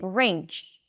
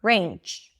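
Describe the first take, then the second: First: The word ends in a voiceless ch sound. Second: The same.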